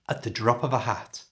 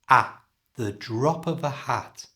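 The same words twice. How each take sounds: First: The phrase is said quickly at full speed. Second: The phrase is said slowly and carefully.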